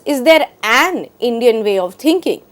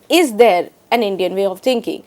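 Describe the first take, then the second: First: The stress falls on the word an. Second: The stress falls on the word is. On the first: "emphasizes an" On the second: "italicized the word is"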